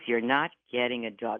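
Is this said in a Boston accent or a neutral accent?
neutral. It is said in a neutral accent.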